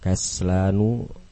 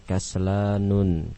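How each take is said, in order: First: The word ends in a vowel, without final n. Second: The word ends with an added final n sound. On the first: The speaker calls it right. "Semuanya tidak menerima tanwin" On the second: The speaker calls it wrong. "Salah kalau dibaca dengan"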